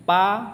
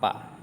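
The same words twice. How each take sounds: First: Pa much higher and louder, falling sharply; fourth tone pa. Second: Pa said light and short without tone; neutral tone pa. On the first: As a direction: bark out Pa with a hard falling tone. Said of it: "pa-nya belakang itu biasa". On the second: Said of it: "dibaca biasa aja". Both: Shown as a demonstration.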